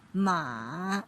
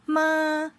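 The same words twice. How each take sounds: First: The pitch dips low then rises again. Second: The pitch stays high and level. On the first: "the third tone with the contour of the check shape" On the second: "they have the high flat level of the tone"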